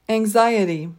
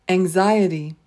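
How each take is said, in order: No difference in how they are said.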